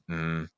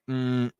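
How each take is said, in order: First: The hum is placed low. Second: The hum is placed high. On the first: The speaker calls it right. "just trying to lower your placement on that N" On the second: The speaker calls it wrong. "when people make an N sound that they do like"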